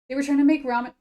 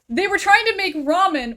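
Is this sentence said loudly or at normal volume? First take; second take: normal; loud. First: It is said at normal volume. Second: It is said noticeably louder.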